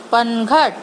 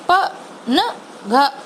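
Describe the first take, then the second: First: पनघट said whole at normal speed; blended word. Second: पनघट stretched letter by letter; slow sounded-out word. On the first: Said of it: "तीनों को मिला के". (पनघट को एक साथ बोलना) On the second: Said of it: "उसका sound slow बोल रही हूँ". (पनघट को अक्षर-अक्षर बोलना) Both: Shown as a demonstration.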